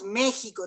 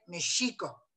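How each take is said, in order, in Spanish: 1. La sílaba tónica no está en la penúltima sílaba. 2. La sílaba tónica está en la penúltima sílaba. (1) "Decimos ... lo pronunciamos mal" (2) "debería de ser ... el acento cae sobre la penúltima sílaba"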